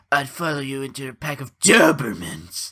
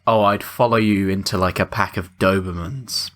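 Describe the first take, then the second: First: Weird put-on cartoon voice, punching DOBERMANS; Nick Cage. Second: Said in the usual way. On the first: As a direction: draw out and swoop on Dobermans in an odd voice. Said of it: "he's putting on this weird voice". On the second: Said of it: "But the way he says it".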